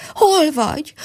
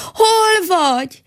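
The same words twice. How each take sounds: First: A higher, frightened call into emptiness; desperate cry. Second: Much higher, louder, slow panicked wail; desperate cry. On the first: Mole calls desperately for the squirrel, higher and frightened. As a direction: cry out lost and panicking. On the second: Mole cries out again in panic, much higher, louder and slow. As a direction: stretch the cry out in rising panic. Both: Acted. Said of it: "kiáltotta kétségbe esetten".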